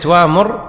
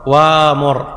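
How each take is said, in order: First: The word has a glottal stop after the first vowel. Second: The glottal stop becomes a long a vowel. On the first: "في كلمة" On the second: "يعني تقول"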